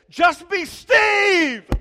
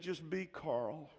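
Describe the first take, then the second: First: It is said in an excited, lively tone. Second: It is said in a flat, plain tone.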